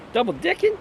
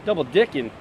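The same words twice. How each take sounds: First: Disbelieving high-pitched echo; shocked question. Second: Said in the usual way. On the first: Shown as a demonstration. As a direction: Double dicking? squeaked very high, rising hard.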